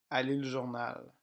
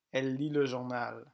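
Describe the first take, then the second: No difference in how they are said.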